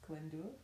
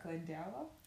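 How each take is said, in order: First: The name is said as 'Glyndwr'. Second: The name is said as 'Glen-dower'. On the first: The speaker calls it right. "the way you're supposed to pronounce it is Glyndwr" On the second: The speaker calls it wrong. "I'll read it like Glendower"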